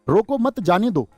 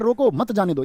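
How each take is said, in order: First: The pause comes after 'mat'. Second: The pause comes after 'roko'.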